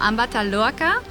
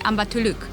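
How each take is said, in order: First: The final a vowel is pronounced. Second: The final a vowel is dropped.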